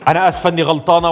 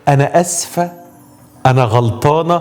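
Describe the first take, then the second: First: It is said in a stiff, harsh, military tone. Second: It is said in a soft, gentle, sighing voice. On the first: The apology sounds grudging and unfriendly. The speaker calls it wrong. "بلاش تبقي قلبه وشك ... لا مش عسكري هو" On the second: The apology sounds sincere and tender. The speaker calls it right. "يا ريت يبقى صوتك شتوي ... شويه تنهيده كده"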